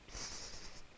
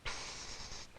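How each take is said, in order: First: It is said softly, a little louder. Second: It is said as loud as possible.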